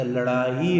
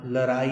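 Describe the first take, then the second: First: लड़ाई slowly, with a retroflex flapped ड़; correct pronunciation. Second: लड़ाई with plain r for ड़; wrong pronunciation. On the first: Teacher corrects the misspelt word, correctly pronounced. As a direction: draw out लड़ाई with a clear retroflex flap. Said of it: "लड़ाई होता है". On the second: Teacher rejects the misspelt word, mispronounced. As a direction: say लड़ाई as "larai". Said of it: "लड़ाई नहीं होता". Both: Shown as a demonstration.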